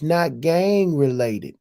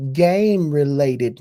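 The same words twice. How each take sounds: First: Slow, leaning on the word gang; stress on gang. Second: Slow, punching the word game; game stressed with a falling tune. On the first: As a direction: set gang against game. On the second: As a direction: land hard on game. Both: Shown as a demonstration. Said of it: "game related, not gang related".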